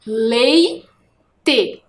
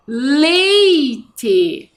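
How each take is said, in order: First: "Leite" split into a held lei, pause, te; syllable by syllable. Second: "Leite" as one long stretched word, falling; drawn-out word. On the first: Teacher isolating the first syllable, "Leite" split in two. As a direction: break "Leite" slowly into two pieces. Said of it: "Eu só quero a primeira sílaba". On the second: Teacher presenting the word to pupils, "Leite" drawn out. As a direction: stretch the "lei" in "Leite" without a break. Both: Shown as a demonstration.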